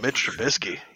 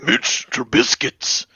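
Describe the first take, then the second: First: It is said in a normal voice. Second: It is said in a put-on macho voice.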